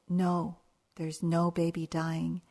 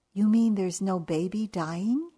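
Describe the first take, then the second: First: Said in the usual way. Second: Louder, rising in disbelief; can it really be true; astonished question. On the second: Retold or imitated. Golfer asking the official in hopeful disbelief, rising.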